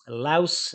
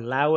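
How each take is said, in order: First: The name ends with an s sound. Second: The name ends without an s sound.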